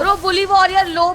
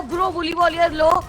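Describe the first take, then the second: First: Shouted callout. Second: Said in the usual way. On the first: Real, not acted. Urgent callout in fight.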